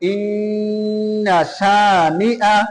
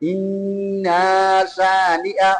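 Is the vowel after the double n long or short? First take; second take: short; long. First: The vowel after the double n is kept short. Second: The vowel after the double n is drawn out. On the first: The speaker calls it right. "শেষ আয়াতের মধ্যে ইন্না শানিআ" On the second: The speaker calls it wrong. "সেখানে সবাই টান দেয় ইন্না শানিআ, অথচ এটা ভুল"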